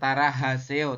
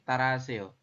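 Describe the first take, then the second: First: The middle h sound is pronounced clearly. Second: The middle h sound is faint or dropped. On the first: The speaker calls it wrong. "bukan tarahaseo" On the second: The speaker calls it right. "tapi taraseo... H itu kalau di tengah... tidak dibaca jelas"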